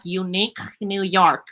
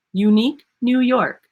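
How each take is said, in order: First: Slow, heavy "Unique New York" with a lazy tongue; tongue-tied version. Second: "Unique New York" crisp and lifted, nothing blocked; open, lifted delivery. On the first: Coach showing the wrong way to say it. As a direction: drag through "Unique New York" like a blocked mouth. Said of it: "If you're like". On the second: Coach showing the right way after the wrong one. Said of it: "I'm going". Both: Shown as a demonstration.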